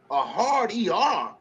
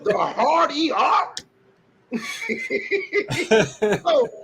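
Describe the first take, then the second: First: "A hard E R?" said slowly, each part drawn out in puzzled disbelief; slow puzzled repeat. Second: "The hard E R?" much higher, laughing, rising at the end; incredulous laughing repeat. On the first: Shown as a demonstration. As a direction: drag out "A hard E R" as if testing the phrase. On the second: Real, not acted. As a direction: repeat it slowly, high and incredulous, laughing through it. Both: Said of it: "They say it with a hard E R".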